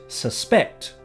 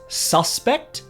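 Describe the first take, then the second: First: The stress is on the second syllable. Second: The stress is on the first syllable. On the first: "compared to the second" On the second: "The stress placed on the first syllable"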